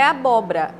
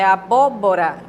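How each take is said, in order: First: The two 'bo' syllables run together. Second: Both 'bo' syllables are clearly pronounced. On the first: The speaker calls it wrong. "geralmente as pessoas emendam" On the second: The speaker calls it right. "Precisa pronunciar os dois"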